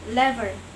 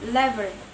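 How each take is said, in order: No difference in how they are said.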